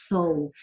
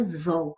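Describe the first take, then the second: First: "sol" said with a crisp S sound at the start; right pronunciation. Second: "zol" said with a buzzing Z sound at the start; wrong pronunciation. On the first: Teacher showing students the correct S in "sol". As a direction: start "sol" with a clean hissed S. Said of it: "a palavra é sol". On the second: Teacher showing students the wrong sound, Z in "zol". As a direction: start "zol" with a clear Z, not an S. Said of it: "a palavra não é zol". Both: Shown as a demonstration.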